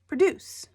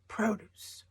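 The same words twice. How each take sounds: First: The stress is on the second syllable. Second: The stress is on the first syllable. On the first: It means to make something. "It's a verb, to make something" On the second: It means fruits and vegetables. "The emphasis on produce is in the first syllable"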